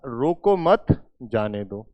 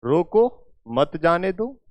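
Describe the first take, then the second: First: Group रोको मत, then drop on जाने दो; pause after मत. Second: "रोको", a break, then "मत जाने दो" joined and rising; pause after रोको. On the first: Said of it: "या". ("रोको मत" एक साथ, फिर नीचे सुर में "जाने दो") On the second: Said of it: "अब मैं इसका क्या अर्थ निकालूं?". ("रोको" पर विराम, फिर "मत जाने दो" एक साथ) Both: Shown as a demonstration.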